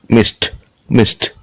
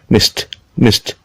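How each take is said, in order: No difference in how they are said.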